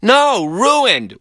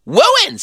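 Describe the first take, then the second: First: "ruined" with a firm clear r; correct r sound. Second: "Wooined" high with a w for the r; squeaky toddler "Wooined"; says w for r. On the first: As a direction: insist on "No, ruined". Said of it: "said Glenn". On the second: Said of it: "said Philip". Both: Retold or imitated.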